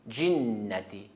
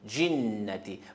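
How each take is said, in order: First: The word begins with a 'dj' sound. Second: The same.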